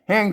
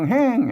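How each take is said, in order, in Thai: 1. คำว่า "แหง" ออกเสียงเป็นเสียงต่ำ 2. คำว่า "แหง" ออกเสียงเป็นเสียงตก (1) "เสียงเอก" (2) "เสียงโท"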